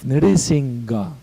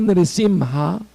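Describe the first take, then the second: First: The name is said with a 'g' sound. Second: The name is said with an 'h' sound. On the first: The speaker calls it wrong. "It's not a G" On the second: The speaker calls it right. "it's an H"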